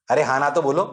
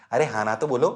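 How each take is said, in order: Both takes have the same delivery.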